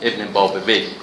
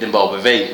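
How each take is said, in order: First: The name ends in a Persian-style 'uyeh' sound. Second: The name ends in an Arabic-style 'awayh' sound. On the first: This is the Persian form of the name. "نه ابن بابوی" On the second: This is the Arabic form of the name. "بیشتر اون فرم عربیش رایج شده، ابن بابوی میگن دیگه"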